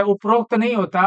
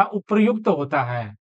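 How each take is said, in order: First: उपरोक्त said as the wrong form, stress on उपरोक्त; उपरोक्त, the incorrect version. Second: उपर्युक्त with a clear र्यु cluster, a bit lower; उपर्युक्त, the right way; correct form. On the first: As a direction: say उपरोक्त as the mistake to avoid. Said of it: "गलत है". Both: Shown as a demonstration.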